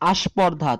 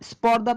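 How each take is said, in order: First: An extra a vowel is added before the s cluster. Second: It starts directly with the s consonant cluster. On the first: "একটি স্বরে আ এসেছে" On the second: "স্পর্ধা থেকে"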